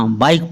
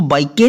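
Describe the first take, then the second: First: बाइक in one syllable, stopping on the K; silent final E. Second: बाइक के, sounding the final E as an extra syllable; wrongly voiced final E. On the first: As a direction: leave the E of बाइक unspoken. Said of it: "बाइक पढ़ना है". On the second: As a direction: mispronounce it as बाइक के, with a "ke" ending. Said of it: "इसको बाइक के नहीं पढ़ना". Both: Shown as a demonstration.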